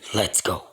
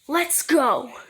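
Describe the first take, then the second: First: It is said in a dark, ominous voice. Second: It is said in a plain, ordinary voice.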